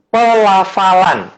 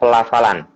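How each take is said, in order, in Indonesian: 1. Kata itu diucapkan dengan jelas, dengan suku kata yang ditekankan. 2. Kata itu digumamkan dengan mulut hampir tidak terbuka. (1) "Ada penekanan di P, ada penekanan di la" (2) "kalau kita tidak hati-hati dan artikulasi mulut kita tidak dibuka, itu jatuhnya akan kedengarannya kayak"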